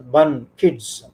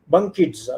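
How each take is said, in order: First: Put-on "bun, kids" broken into two separate syllables; split into syllables. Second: Said in the usual way. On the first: Shown as a demonstration. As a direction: say "bun", pause, then "kids".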